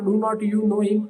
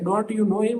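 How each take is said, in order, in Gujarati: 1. "Do not" બે પૂરા શબ્દો તરીકે બોલાય છે. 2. "Do not" સંકોચાઈને એક શબ્દ, "don't" બને છે. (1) "આ સારું લાગતું નથી" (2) "જોડે બોલીએ છીએ"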